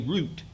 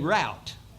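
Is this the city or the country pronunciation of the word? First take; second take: city; country. First: It is pronounced the way city people say it. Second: It is pronounced the way country people say it. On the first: "City people say route" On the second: "country people say route"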